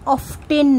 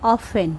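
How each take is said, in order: First: The t sound is pronounced in the middle. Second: The t sound is silent in the middle. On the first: The speaker calls it wrong. "টি এর উচ্চারণ হয় না, অফটেন নয়" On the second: The speaker calls it right. "উচ্চারণটা হবে অফেন"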